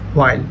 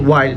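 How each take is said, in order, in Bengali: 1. শব্দটি একটি স্পষ্ট শোনা যায় এমন h-এর উচ্চারণ দিয়ে শুরু হয়। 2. শব্দটি কোনো h-এর উচ্চারণ দিয়ে শুরু হয় না। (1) "নট" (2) "উই ক্যান সে"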